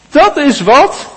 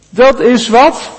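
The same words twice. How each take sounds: The two takes are said the same way.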